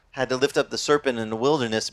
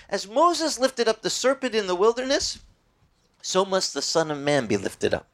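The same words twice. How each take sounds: First: Said in the usual way. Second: Lifted, higher scripture quote; quoting Jesus. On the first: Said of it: "You know, when Moses". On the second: Retold or imitated. Preacher quoting Jesus to the congregation, lifted higher. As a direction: raise the voice for the words of Jesus. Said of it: "Jesus said".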